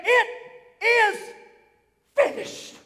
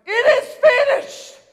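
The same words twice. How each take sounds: First: Rising higher word by word, last word breathed; awed, rising, half-whispered finish; hushed cry of victory. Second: Loud and much higher, ringing out; triumphant full-voiced cry; cry of victory. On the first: Retold or imitated. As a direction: let each word climb, then breathe out finished. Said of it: "he let out a shout". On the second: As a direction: shout it out in triumph. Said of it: "It's a cry of victory".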